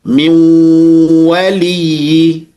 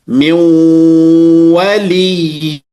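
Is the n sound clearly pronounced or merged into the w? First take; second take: merged; merged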